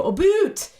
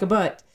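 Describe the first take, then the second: First: High-pitched mock Canadian "boot" with a long oo; stereotyped Canadian accent. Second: Understated Canadian vowel, short "butt"; realistic, unexaggerated Canadian "about"; milder Canadian accent. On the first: Linguist mocking the belief about Canadians, exaggerated Canadian accent. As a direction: overdo the Canadian vowel, pitched up. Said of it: "Canadians have an accent where they go". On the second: Shown as a demonstration. Linguist correcting the stereotype, subtle Canadian accent. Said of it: "They say something more like".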